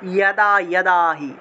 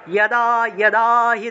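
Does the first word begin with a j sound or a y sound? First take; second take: y sound; y sound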